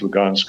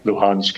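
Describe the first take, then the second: First: The name is said with a Russian pronunciation. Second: The name is said with a Ukrainian pronunciation. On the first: "this is the Ukrainian or Russian pronunciation" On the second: "this is the Ukrainian or Russian pronunciation"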